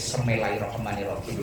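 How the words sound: It begins with a blurred 'semela' sound.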